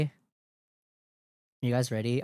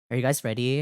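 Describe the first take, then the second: First: Very slow, stretched-out question; drawn-out hype call. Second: Said in the usual way. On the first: Acted. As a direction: drag every word out teasingly.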